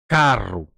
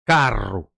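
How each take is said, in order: First: The r sound is strongly rolled. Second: The r sound is strongly rolled.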